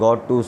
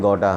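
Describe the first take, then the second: First: 'Got to' is said as two full words. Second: 'Got to' is blended into 'gotta'. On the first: "गॉट टू से गोटा" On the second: "गॉट टू से गोटा"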